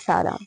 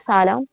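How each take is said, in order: First: The word is said quietly and lowered. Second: The word is said loudly and raised. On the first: This is the one replying to a greeting. "थोड़ा धीमी लहजे में" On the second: This is the one who greets first. "थोड़ा ऊंचे अंदाज में बुलंद तरीके से"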